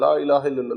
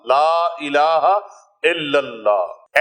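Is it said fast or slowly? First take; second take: fast; slowly. First: It is said quickly and hurriedly. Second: It is said slowly and calmly.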